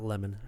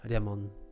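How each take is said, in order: First: The word begins with a clear L sound. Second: The word begins with an R-like sound. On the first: The speaker calls it right. "not lemon" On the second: The speaker calls it wrong. "They might say like"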